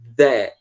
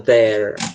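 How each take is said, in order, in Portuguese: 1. O R é omitido, com sotaque britânico. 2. O R é pronunciado, com sotaque americano. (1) "igual os, os ingleses fazem... Eles não puxam R" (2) "americano que fala there, puxando R"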